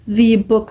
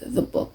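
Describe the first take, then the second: First: The word 'the' is strongly emphasized. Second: The word 'the' is said plainly.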